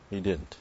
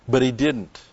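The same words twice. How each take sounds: First: Much softer, dropped repeat; soft echo. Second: Said in the usual way. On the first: Real, not acted. Preacher repeating the point to the congregation, hushed. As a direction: let it sink in quietly.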